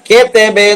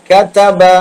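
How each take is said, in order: First: The vowels are pronounced like 'e'. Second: The vowels are pronounced like open 'a'. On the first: The speaker calls it wrong. "കെ തേബെ എന്ന് പറയരുത്" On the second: The speaker calls it right. "അങ്ങനെ പറ"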